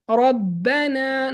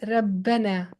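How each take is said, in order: First: The r is pronounced heavy and thick. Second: The r is pronounced light and thin. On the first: The speaker calls it right. "it has a fatha, so we make it thick" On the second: The speaker calls it wrong. "not Rabbana ... it doesn't sound good"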